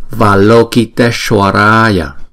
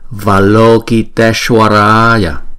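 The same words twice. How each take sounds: Both takes have the same delivery.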